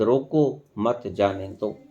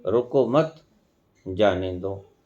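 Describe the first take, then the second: First: रोको, brief pause, then मत जाने दो, low and slow; pause after रोको. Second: रोको मत together, pause, then जाने दो lower; pause after मत. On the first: Teacher giving listeners an example, pause after रोको. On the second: Teacher showing meaning change by pause, break after मत. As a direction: join रोको to मत, then a separate, softer जाने दो. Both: Shown as a demonstration. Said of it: "एक coma या ठहराव के अंदर भी फर्क".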